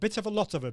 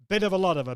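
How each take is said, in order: First: The T sounds are pronounced crisply and clearly. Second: The T sounds are softened, North American style. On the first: "You're getting those T's" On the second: "Or if it's the North American version"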